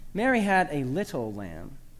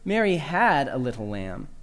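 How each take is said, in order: First: The word "little" carries the main stress. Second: The word "had" carries the main stress. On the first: The lamb's small size is what matters. "Emphasize the fourth word to make much of the lamb's diminutive stature" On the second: She no longer has the lamb. "Emphasize the second word"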